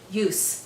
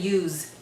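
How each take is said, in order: First: The word ends with a strong S sound. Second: The word ends with a buzzing Z sound. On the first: The word is a noun. The speaker calls it right. "with a strong S" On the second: The word is a verb. The speaker calls it wrong. "don't say use. Use is a verb"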